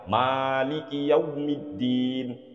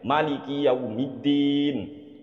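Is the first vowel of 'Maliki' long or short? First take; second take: long; short. First: The first vowel of Maliki is drawn out long. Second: The first vowel of Maliki is kept short. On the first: "mimnya Maliki itu kan kalau kita mayoritasnya membaca panjang" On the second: "Tapi Habib Umar membaca pendek"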